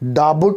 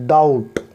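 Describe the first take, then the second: First: A b sound is pronounced in the middle. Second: No b sound is heard in the middle. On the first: The speaker calls it wrong. "डाबुट नहीं पढ़ेंगे" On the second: The speaker calls it right. "यहाँ पर बी silent है"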